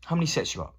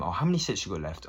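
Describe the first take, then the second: First: Much higher, nagging repeat ask; mock impatient nag. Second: Said in the usual way. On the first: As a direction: pester them yet again, voice pitched way up. Asker asks yet again, much higher.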